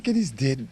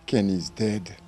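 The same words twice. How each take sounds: First: Higher-pitched disbelieving echo; re-enacted shock, voice lifting; retold shocked echo. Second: Said in the usual way. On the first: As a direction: repeat the bad news back, pitched up in disbelief. Repeats brother's news back in shock.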